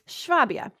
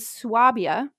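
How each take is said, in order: First: The word begins with an 'sh' sound. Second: The word begins with a plain 's' sound. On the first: The speaker calls it right. "you'd be saying that Schwabia. ... That makes more sense" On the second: The speaker calls it wrong. "Hopefully I'm saying that correctly"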